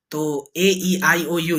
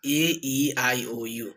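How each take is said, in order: First: Said in the usual way. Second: ए, ई, आई, ओ, यू stretched slowly with the jaw open; stretched vowels. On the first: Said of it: "जैसे मैंने simple बोला". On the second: Shown as a demonstration. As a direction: lower and softer, each vowel drawn out with the mouth open wide. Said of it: "ये जो मैंने अभी बोला था सबसे फर्स्ट में ऐसे करने के लिए". (ए, ई, आई, ओ, यू धीमे और खींचकर, मुंह पूरा खोलकर)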